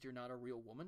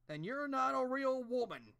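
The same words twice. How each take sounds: First: Said in the usual way. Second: Much higher, louder, slow sarcastic verdict; mocking quote. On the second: Mocking the show's line to Sandra, slow sarcastic high voice. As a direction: drag it out as a ridiculous pronouncement. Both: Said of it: "the fuck was that supposed to mean".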